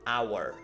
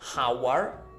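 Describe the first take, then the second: First: The word starts with no H sound. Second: The word starts with an audible H sound. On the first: The speaker calls it right. "we have no aspiration of H sound" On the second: The speaker calls it wrong. "not hour"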